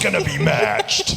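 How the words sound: It is said in a loud, aggressive announcer way.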